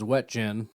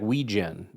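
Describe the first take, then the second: First: The name is said as spelled, with clear T-J. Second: The name is said with softened middle sounds. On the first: "it's W E T J E N. It's it's as straightforward as it gets" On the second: "Turns out the guy's name is like Weegen or something"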